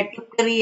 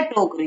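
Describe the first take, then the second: First: टुकरी said with a short u, "tukri", as the wrong word; टुकरी read as the mistaken spelling; wrong form read out. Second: टोकरी said with a clear long o, "tokri"; correct pronunciation. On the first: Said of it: "टुकरी कुछ नहीं होता बच्चों". (गलत उच्चारण "टुकरी") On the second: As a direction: land टोकरी cleanly as the answer. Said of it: "होता क्या है". (सही उच्चारण "टोकरी", साफ़ ओ) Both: Shown as a demonstration.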